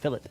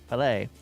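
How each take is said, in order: First: It sounds like 'fill it', with a t. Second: It sounds like 'fil-ay', with no t. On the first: The speaker calls it wrong. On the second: The speaker calls it right.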